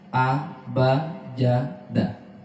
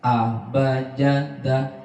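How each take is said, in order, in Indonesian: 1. Suku katanya dipisahkan dengan jeda. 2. Suku katanya tersambung tanpa jeda. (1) "dibaca tetap pisah-pisah" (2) "Atau disambung"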